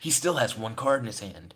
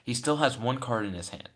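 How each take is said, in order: First: It is read in a put-on character voice. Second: It is read in the speaker's ordinary voice. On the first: The speaker calls it right. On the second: The speaker calls it wrong.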